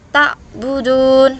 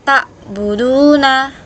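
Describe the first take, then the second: First: The final vowel is dropped, ending on n. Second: The word ends with a final vowel after n. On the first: The reader stops at this word. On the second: The reading continues without a stop.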